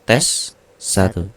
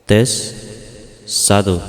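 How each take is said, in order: First: The voice sounds shifted to a different pitch. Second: The voice sounds soft with a karaoke echo. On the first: "tujuh puluh ke tujuh puluh sembilan itu pitch" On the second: "efek karaoke ini efek yang paling nyaman di telinga saya"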